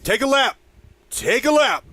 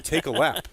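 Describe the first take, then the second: First: Loud, high shout across the field; heckling fan yell. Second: Said in the usual way. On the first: Retold or imitated. Imitating a guy yelling at players, loud high holler. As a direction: bellow it like a fan playing coach. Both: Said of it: "there was a guy yelling".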